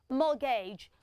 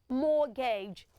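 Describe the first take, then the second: First: The T in the middle is silent. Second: The same.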